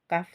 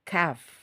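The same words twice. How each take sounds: First: The sound is released with no puff of air. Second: The sound is released with a puff of air. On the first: The speaker calls it wrong. "tidak ada udaranya" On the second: The speaker calls it right. "Jika udaranya keluar berarti pelafalan huruf hijaiyah kaf itu sudah sempurna"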